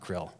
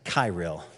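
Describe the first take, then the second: First: The name is said as one syllable. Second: The name is said as two syllables. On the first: The speaker calls it wrong. "I keep wanting to say krill. It's not krill" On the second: The speaker calls it right. "This is Kirill"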